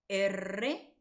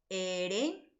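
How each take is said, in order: First: R named "erre" with a trill; R as a rolled "erre"; multiple vibrant. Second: R named "ere" with one tap; R as a tapped "ere"; simple vibrant. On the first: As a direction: say R as "e-rre", rolling the tongue. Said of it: "una vibrante múltiple". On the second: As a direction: say R as "e-re", tongue touching once. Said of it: "una vibrante simple". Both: Shown as a demonstration.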